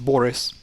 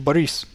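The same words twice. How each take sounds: First: The stress is on the first syllable. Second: The stress is on the second syllable. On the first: The speaker calls it wrong. "You guys pronounce this name as Boris" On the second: The speaker calls it right. "The emphasis is on E, or well, it's I"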